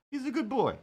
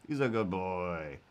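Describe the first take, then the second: First: Put-on high pitched "He's a good boy.". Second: Put-on low, soft "He's a good boy."; deep voice. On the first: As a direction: up high like praising a dog. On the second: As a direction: drop deep and quiet. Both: Shown as a demonstration. Two takes contrasting.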